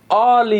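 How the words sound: It is pronounced the French way.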